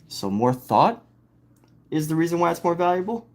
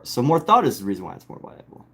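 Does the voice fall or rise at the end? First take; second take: rise; fall. First: The voice rises at the end like a question. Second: The voice falls at the end like a statement. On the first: The speaker is prompting the listener to question it. "asking me in a way to get me to question" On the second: The speaker presents it as the final answer. "if that is like the final answer"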